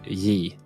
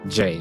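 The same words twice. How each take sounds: First: The letter has a Y sound. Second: The letter has an English J sound. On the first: This is how Swedes say it. The speaker calls it right. "we say J" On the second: This is not how Swedes say it. The speaker calls it wrong. "we don't say J"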